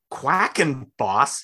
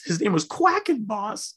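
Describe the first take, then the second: First: Quackenboss said very slowly, syllable by syllable; slow, deliberate Quackenboss; slow careful. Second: Quackenboss said much higher in mock disbelief; incredulous, higher Quackenboss; amused emphasis. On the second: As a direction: relish the silly name Quackenboss. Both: Shown as a demonstration.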